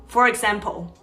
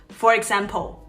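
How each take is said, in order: The two takes are said the same way.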